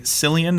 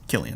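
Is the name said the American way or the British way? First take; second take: American; British. First: The name is said the American way. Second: The name is said the British way. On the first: This is how Americans say the name. "apparently Cillian is how Americans say it" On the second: This is how the name's owner says it. "And he's British. It's Cillian"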